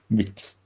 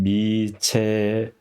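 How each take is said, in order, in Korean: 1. ch 소리가 음절을 닫아요. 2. ch 소리 뒤에 짧은 모음이 와요. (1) "치가 받침이 되는 거죠. 미치 이렇게 되는 거죠" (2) "만약에 여기서 끊으면 미체 이렇게 하지만"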